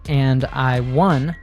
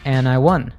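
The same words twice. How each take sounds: First: The D at the end of 'and' is pronounced. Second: The D at the end of 'and' is dropped. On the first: "She doesn't say" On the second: "the D in and is dropped"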